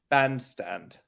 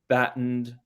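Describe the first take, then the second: First: The two parts run together with no gap. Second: There is a short gap between the two parts. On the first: "take out the gap completely" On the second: "get that little gap a little shorter now"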